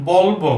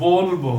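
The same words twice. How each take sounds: First: বলবো with open aw first vowel; teacher shows বলবো with open vowel; spelling pronunciation. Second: বলবো as "bol-bo" with rounded o; teacher models বলবো with o; o-sound demo. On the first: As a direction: say বলবো as "bawl-bo". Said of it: "এই উচ্চারণ বলবো". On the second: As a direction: hold the first o in বলবো. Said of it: "উচ্চারণ হয় বলবো". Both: Shown as a demonstration.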